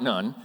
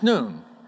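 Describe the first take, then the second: First: The vowel is short, as in 'bun'. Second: The vowel is long, as in 'moon'. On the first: The speaker calls it wrong. "It's not Nun" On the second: The speaker calls it right. "it's Nun"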